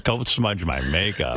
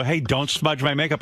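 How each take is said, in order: First: Low, slow, drawn-out mock warning; mock macho replay. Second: Higher-pitched, fussy hands-off warning; retold alarm, protecting the makeup; quick fussy warning. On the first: Host mocks his own vanity, low and slow. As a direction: replay it lower and slower, hammed up. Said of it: "Now you've turned into Burt Reynolds". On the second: Host retells warning his wife off, fussy. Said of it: "I go, "Hey, don't smudge my makeup".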